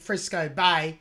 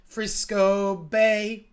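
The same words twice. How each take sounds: First: Spoken plainly in an Australian accent; Aussie accent. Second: Slow, sustained singing; sung demonstration. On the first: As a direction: say it in your own Aussie accent, unsung. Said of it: "That's in my Aussie accent". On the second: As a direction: sing it out, stretching each syllable. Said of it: "You sing it". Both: Shown as a demonstration.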